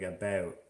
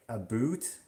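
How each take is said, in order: First: "about" with a mildly raised vowel, like a-beh-oot; understated Canadian OU in "about"; realistic Canadian about. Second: "a boot" with a long OO, questioning rise; cartoon Canadian OO in "a boot", rising; super exaggerated about. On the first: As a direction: say "about" with subtle Canadian raising. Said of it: "they can say, like, about". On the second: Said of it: "that's super exaggerated". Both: Shown as a demonstration.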